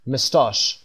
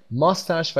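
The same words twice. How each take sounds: First: مستاش as "muh-STAHSH", long "ah" at the end; British pronunciation. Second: ماستش as "MUS-tash", short "a" at the end; American pronunciation. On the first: Teacher recapping British accent for learners, مستاش as "muh-STAHSH". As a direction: say مستاش with weak first syllable, British style. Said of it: "به لهجهٔ بریتیش". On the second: Teacher recapping the word for learners, ماستش as American "MUS-tash". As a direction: say ماستش with a full first syllable, American style. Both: Shown as a demonstration.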